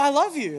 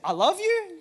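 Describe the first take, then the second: First: The voice falls at the end like a statement. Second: The voice rises at the end like a question. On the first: It sounds like a sure statement. The speaker calls it right. "it's a statement" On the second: It sounds like a doubtful question. The speaker calls it wrong. "you said it like a question"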